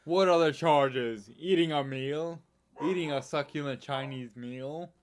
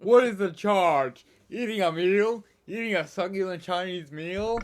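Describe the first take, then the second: First: Milder take on the outraged arrested diner; man protesting his arrest. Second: Outraged arrested man. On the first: Quoting an arrested diner to the co-host, mock indignation. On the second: Re-enacting the dine-and-dash arrest for the co-host, loud mock outrage. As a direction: boom it out like an indignant diner under arrest. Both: Acted. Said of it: "he was arrested in the U K".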